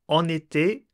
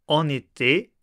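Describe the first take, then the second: Both takes have the same delivery.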